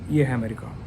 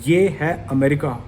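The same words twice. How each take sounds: First: It is said in a low, deflated tone. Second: It is said in a proud, confident tone. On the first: The speaker is disappointed in the country. "बड़ा ही वो tone में कम, मैं नीचे चला गया" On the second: The speaker is proud of the country. "मैं बड़ा proudly बोला करता था"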